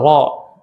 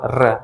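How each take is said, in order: First: The r sound is heavy and thick. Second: The r sound is light and thin. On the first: The speaker calls it right. "Ro harusnya tebel" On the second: The speaker calls it wrong. "Dia baca tipis padahal dia tebal"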